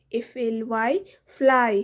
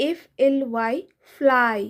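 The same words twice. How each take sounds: The two takes are said the same way.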